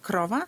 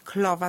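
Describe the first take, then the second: First: An r sound follows the k. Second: An l sound follows the k. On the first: The word is pronounced correctly. "zamiast krowa" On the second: The child swaps the r for a common, harmless substitute. "jeżeli jest to ly, najczęstsza taka substytucja"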